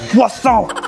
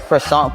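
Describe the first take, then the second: First: It uses a French-style pronunciation of croissant. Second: It uses an English-style pronunciation of croissant. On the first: A local is correcting the visitor. The speaker calls it right. "no, it's a croissant" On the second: A visitor is ordering without knowing the language. The speaker calls it wrong. "when you're like mispronouncing their names"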